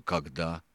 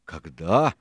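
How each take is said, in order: First: Subdued, questioning КОГДА; grumbling question. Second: Louder КОГДА, thrown back rising; raised-voice когда, rising at the end; shouted question. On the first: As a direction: ask когда as a mild grumble, rising. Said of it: "проворчал второй боцман". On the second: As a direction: cry out когда as an indignant echo. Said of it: "закричал Сильвер". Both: A narrator's reading.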